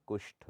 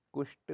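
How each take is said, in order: First: कुष्ठ ending in breathy tha; aspirated th. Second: कुष्ठ said as kusht; no puff of air ending कुष्ठ; unaspirated t. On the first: Teacher corrects it, कुष्ठ with breathy ठ. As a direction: puff air on the ठ of कुष्ठ. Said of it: "होता है". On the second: Teacher shows the error, कुष्ठ with ट. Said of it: "नहीं होता". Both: Shown as a demonstration.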